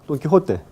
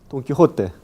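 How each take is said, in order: The two takes are said the same way.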